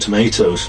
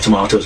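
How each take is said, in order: First: Tomatoes is said with an American pronunciation. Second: Tomatoes is said with a non-American pronunciation.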